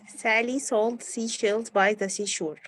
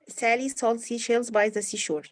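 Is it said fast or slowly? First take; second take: slowly; fast. First: It is said at a slower pace. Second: It is said at a faster pace.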